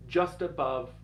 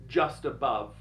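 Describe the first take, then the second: No difference in how they are said.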